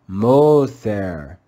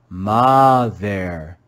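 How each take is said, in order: First: The first vowel is a long O sound. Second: The first vowel is a short O sound. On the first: "You could read this with a classical O sound, and it would sound like mother" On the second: "You could read it with a short O sound and read mother"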